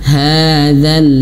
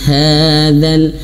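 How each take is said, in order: Both takes have the same delivery.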